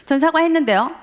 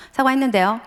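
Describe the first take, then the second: First: Higher, louder, defiant repeat; a son escalating the quarrel with his father, heated defiance; heated insistence. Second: Put-on a sullen teen's curt answer, mildly raised; a son answering his father in the car, mildly sulky; sulky reply. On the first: Retold or imitated. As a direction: dig in and push back harder. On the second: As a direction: brush it off, a bit defiant. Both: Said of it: "점점 서로 격해".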